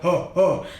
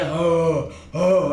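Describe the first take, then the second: First: Each sound is short and cut off. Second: Each sound is sustained for a long time. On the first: "First is staccato" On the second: "then it's holding it"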